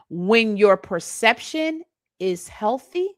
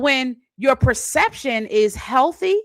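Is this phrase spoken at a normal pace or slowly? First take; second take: slowly; normal. First: It is spoken slowly and deliberately. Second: It is spoken at a normal pace.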